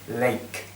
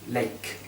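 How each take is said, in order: The two takes are said the same way.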